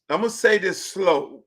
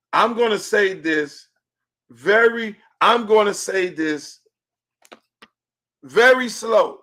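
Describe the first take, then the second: First: Said in the usual way. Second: Slow, spaced-out words with long pauses; measured, emphatic slow announcement; deliberately slow. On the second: Real, not acted. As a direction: spell it out very slowly for emphasis.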